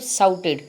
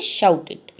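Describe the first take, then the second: First: The word begins with a plain 's' sound. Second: The word begins with an 'sh' sound. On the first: The speaker calls it wrong. "सा नहीं होता है" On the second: The speaker calls it right. "श होता है"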